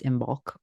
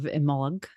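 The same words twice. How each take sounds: First: The word is pronounced the way it is spelled. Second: The word has an Irish pronunciation. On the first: "you might see it written more I M B O L C, so you might hear it pronounced Imbolc" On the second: "that's more of an Irish pronunciation"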